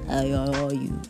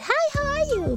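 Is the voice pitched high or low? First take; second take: low; high. First: The voice is pitched low. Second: The voice is pitched high. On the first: He cares and feels an emotional connection. "he was speaking like in a low voice" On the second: A casual greeting without special feeling. "he could have went high-pitched"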